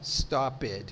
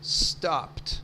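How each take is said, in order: First: The ending is said as an extra syllable. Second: The ending is a plain t sound. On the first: The speaker calls it wrong. "ele não poderia falar esse E aí" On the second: The speaker calls it right. "Teria que ser stopped, sem pronunciar o E"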